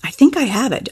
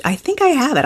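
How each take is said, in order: First: I think I have it, pressing the word think; musing, with weight on think; stress on think. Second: I lifted higher and leaned on; I think I have it, pressing the word I; a quiet, certain claim with the weight on I; stress on I. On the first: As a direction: think leaned on, the rest light. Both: Shown as a demonstration. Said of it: "just say".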